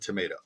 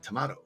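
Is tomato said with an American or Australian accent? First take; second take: American; Australian. First: It is said with an American accent. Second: It is said with an Australian accent. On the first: This is how the speaker says it. "how I said tomato ... my American accent" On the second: This is how the visitors say it. "They say tomato over there"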